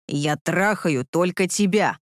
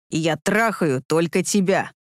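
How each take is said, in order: First: Low, slow growl; slow low emphatic growl; lower, slow rumble. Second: Low, slow mild growl; lower, slow rumble. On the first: Repeats while thrusting. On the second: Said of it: "рыкнул он". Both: A narrator's reading.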